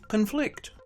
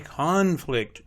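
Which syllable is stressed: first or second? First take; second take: second; first. First: The stress is on the second syllable. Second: The stress is on the first syllable. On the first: It is used as a verb. "Two-syllable verbs are stressed on the second syllable" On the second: It is used as a noun. "Two-syllable nouns are stressed on the first syllable"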